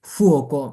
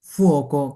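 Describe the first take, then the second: No difference in how they are said.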